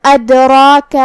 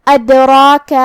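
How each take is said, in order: First: ادراک with the را and the long alif read full and heavy. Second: ادراک with the dal bounced, a slight echo on the stopped د; qalqala on dal. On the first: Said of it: "مطلب بھاری آواز میں ادا کریں گے". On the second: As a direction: jolt the silent د in ادراک. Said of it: "تو ہمیں دال کو ہلاتے ہوئے یہ کلمہ کو پڑھنا ہے". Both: Shown as a demonstration.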